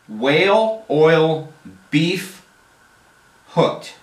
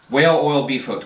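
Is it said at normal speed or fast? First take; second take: normal; fast. First: It is said at a normal, unhurried pace. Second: It is said quickly, running the words together.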